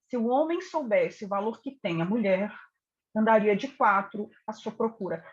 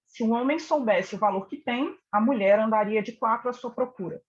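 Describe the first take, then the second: First: The pause comes after the word mulher. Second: The pause comes after the word tem. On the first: "Nós percebemos uma valoração desse homem em relação a essa mulher" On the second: "vamos pensar no primeiro texto novamente"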